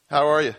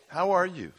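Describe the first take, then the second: First: It is asked in a quick, offhand way. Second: It is asked with sincere, caring interest.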